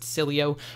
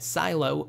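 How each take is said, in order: First: The middle E vowel is sounded. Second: The middle E vowel is left out. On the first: The speaker calls it right. "it's pronounced Cilio" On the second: The speaker calls it wrong. "with a silent E"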